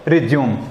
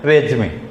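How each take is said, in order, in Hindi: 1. इस शब्द का अंत 'm' ध्वनि पर होता है। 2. इस शब्द का अंत 'ay' स्वर की ध्वनि पर होता है। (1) "अधिकतर बच्चे बोलते हैं इसको रिज्यूम" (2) "रेज्यूमे बोलते हैं इसको इंग्लिश में"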